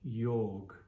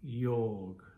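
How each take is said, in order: No difference in how they are said.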